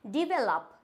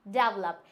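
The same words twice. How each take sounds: First: डेवलप said as "di-vel-up"; correct pronunciation. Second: डेवलप said as "dav-lup"; wrong pronunciation. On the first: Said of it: "हम क्या बोलते हैं". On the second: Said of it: "डेवलप ना बोल के". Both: Shown as a demonstration.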